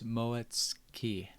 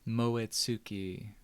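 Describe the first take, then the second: First: The middle syllable is clipped and quieter. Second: The middle syllable is pronounced in full. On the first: This is how the name's owner says it. "the way I pronounce it when I look at it is Moetski. And kind of making the T more silent" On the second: This is how Western speakers might say it. "the English or the Western side would be like Moetsuki"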